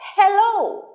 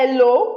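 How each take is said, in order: First: The word starts with a breathy h sound. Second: The word starts without an h sound. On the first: The speaker calls it right. "it's what? Hello" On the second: The speaker calls it wrong. "It's not hello"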